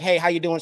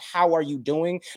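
First: It sounds casual and offhand. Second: It sounds sincere and caring.

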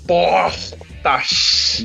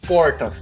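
First: The consonant before the t is a hushed S. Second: The consonant before the t is an R.

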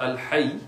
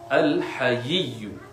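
First: The y sound is short and single. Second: The y sound is doubled and held longer. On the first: The speaker calls it wrong. "not Al-Hayy" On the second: The speaker calls it right. "with two ya's"

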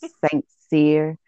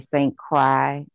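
First: The second part does not sound like 'cry'. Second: The second part sounds like 'cry'. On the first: The speaker calls it right. "It's Saint Cyr" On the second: The speaker calls it wrong. "they usually say Saint Cry or something like that"

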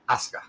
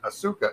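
First: The vowel between S and K is dropped. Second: The vowel between S and K is pronounced. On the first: The speaker calls it right. "That vowel that's in between there, between that S and that K is gone" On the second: The speaker calls it wrong. "So it's not Asuka"

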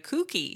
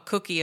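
First: It is said with a northern English accent. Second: It is said with a standard accent.

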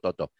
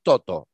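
First: The stress is on the last syllable. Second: The stress is on the first syllable. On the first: The speaker calls it wrong. "no Toto" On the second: The speaker calls it right. "El primero no tiene acento, es Toto"

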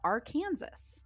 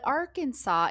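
First: The word ends like the word 'Kansas'. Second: The word ends in a 'saw' sound. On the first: The speaker calls it wrong. "why is Kansas pronounced Kansas" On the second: The speaker calls it right. "but Arkansas is not"

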